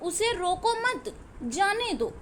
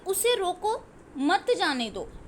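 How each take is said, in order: First: The pause comes right after मत. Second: The pause comes right after रोको.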